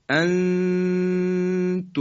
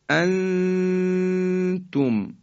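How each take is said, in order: First: The n is hidden as a held nasal sound. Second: The same.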